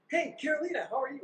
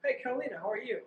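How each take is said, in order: First: Louder, more emphatic. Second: Said in the usual way. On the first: Shown as a demonstration. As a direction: call higher and louder, insisting. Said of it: "A little bit louder, a little bit more emphatic". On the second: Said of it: "if I was to talk to you, I'd say".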